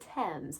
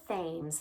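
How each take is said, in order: First: The word begins with a plain 't' sound. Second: The word begins with a 'th' sound. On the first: The speaker calls it right. "It's the Thames" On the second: The speaker calls it wrong. "you want to pronounce it as Thames. That's not correct"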